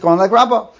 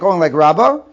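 First: The voice falls at the end like a statement. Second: The voice rises at the end like a question. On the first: It states that the ruling follows that view. The speaker calls it right. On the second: It asks whether the ruling follows that view. The speaker calls it wrong.

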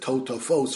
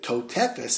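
First: The word is said with o vowels. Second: The word is said with e vowels. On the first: The word is read in its usual way. The speaker calls it right. "instead of" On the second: Each letter of the written word is read out. The speaker calls it wrong. "he pronounced each word as it's spelled out"

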